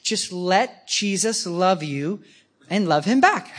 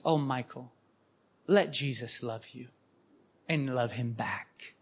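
First: Patient advice. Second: Soft and lower, slowing at the end; a hushed, motherly repeat of the advice; tender, quiet. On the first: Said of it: "Oh, here's our advice". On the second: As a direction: gently soothe a troubled man. Sisters gently repeat their advice. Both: Retold or imitated.

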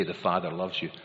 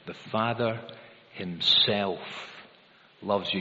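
First: Said in the usual way. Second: The Father himself loves you, with "himself" set apart and weighted after a pause; stress on himself. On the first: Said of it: "It doesn't just say". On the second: Shown as a demonstration. Preacher to congregation, weighting "himself" for emphasis. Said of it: "pick out that little, uh, emphasis word".

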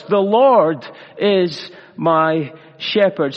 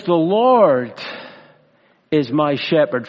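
First: Slow, deliberate. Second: Said in the usual way. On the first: Shown as a demonstration. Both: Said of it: "Five simple words".

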